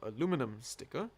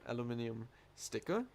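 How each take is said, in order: First: Aluminum is said the American way. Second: Aluminum is said the British way.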